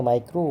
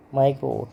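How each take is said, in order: First: माइक्रो with a long, held final ओ; drawn-out ओ ending. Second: Said in the usual way. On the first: Shown as a demonstration. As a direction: stretch out the ओ that ends माइक्रो. (माइक्रो के अंत में खिंचा हुआ ओ) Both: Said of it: "ओ का".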